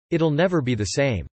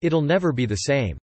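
Both takes have the same delivery.

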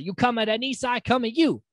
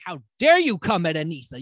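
First: Heated threat. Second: Indignant. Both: Retold or imitated. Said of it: "She's like".

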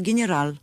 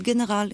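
First: גנרל with a rolled front r, ge-ne-ral; Russian accent in Hebrew. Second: גנרל with a throaty Hebrew r, ge-ne-ʁal; Israeli pronunciation. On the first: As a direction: say גנרל the Russian way, tongue-tip r. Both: Shown as a demonstration. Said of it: "וצריך להגיד".

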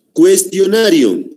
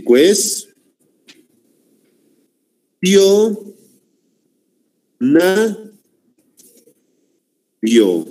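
First: Said in the usual way. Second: "cues-, tio-, na-, rio" with long pauses between syllables; split into syllables. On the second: Shown as a demonstration. Teacher separating the word for the class, "cues-, tio-, na-, rio" syllable by syllable. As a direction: say "cues-, tio-, na-, rio" one piece at a time. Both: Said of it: "Vamos a separar".

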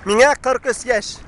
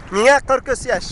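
Both takes have the same delivery.

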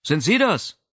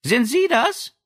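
First: Said in the usual way. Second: Much higher bright question; high girlish voice. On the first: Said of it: "Rizi horchte". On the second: Acted. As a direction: ask it lightly, like a young girl. Madame Berger's girlish voice.

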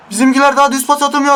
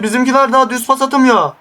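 First: "daha" hit, rattled off higher and fast; fast exasperated repeat. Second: Said in the usual way. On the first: Real, not acted. Gamer fumes about his team's passing, higher and fast. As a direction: repeat it faster, fed up.

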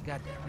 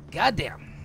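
First: Much softer, under the breath; quiet echo of Goddamn; muttered repeat. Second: Said in the usual way. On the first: Real, not acted. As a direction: mutter the Goddamn again to yourself.

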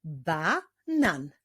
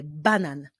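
First: "Banan" divided into Ba, nan; syllable by syllable. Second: Said in the usual way. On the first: Shown as a demonstration. Teacher leading reading training, "Banan" split into syllables. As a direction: clap out "Banan" with a gap between halves. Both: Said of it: "wyklaszczmy sylaby w wyrazie banan".

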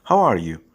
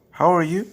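First: Said in the usual way. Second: How are you with ARE rising high; rising question. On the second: Shown as a demonstration. (sonu yükselen soru) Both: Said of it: "Nasılsın anlamına gelen".

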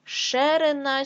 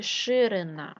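First: Ширина said as Шерина; е in first syllable. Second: Said in the usual way. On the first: Shown as a demonstration. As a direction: open e after Ш in Ширина. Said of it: "нам потрібно вставити або".

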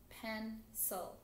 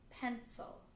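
First: "pencil" in two separate beats; split into syllables. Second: Said in the usual way. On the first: Shown as a demonstration. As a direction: break "pencil" into pen, pause, cil. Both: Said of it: "all of those words had two syllables".

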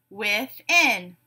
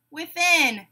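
First: "Within" split in two, with-in; syllable by syllable. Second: Said in the usual way. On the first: Shown as a demonstration. Teacher giving a word to blend, said syllable by syllable. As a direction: leave a gap inside "Within". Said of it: "say the syllables in a word". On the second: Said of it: "you tell me the whole word".

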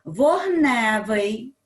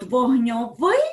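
First: Вогневий loud and drawn out on НЕ; stress on the stem. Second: Вогньовий loud, final -ВИЙ stressed; stress on the ending. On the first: Teacher contrasting stress for pupils, Вогневий stressed on Е. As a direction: slowly punch the middle syllable, вог-НЕ-вий. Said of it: "наголос падає на основу". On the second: Teacher contrasting stress for pupils, вогньовий stressed at the end. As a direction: hit the last syllable, вогньо-ВИЙ. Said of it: "наголос падає на закінчення". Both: Shown as a demonstration.

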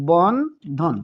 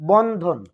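First: Bandhan drawn out in two separate beats; syllable by syllable. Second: Said in the usual way. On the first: Shown as a demonstration. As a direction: split Bandhan into two syllables, pausing between them. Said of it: "তাহলে কতবারে বললাম". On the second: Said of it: "আমরা যদি উদাহরণস্বরূপ বলি".

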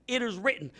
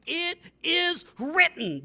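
First: Said in the usual way. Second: Slow, high, drawn-out declaration; proclaimed. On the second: Shown as a demonstration. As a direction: proclaim it slowly to the devil.

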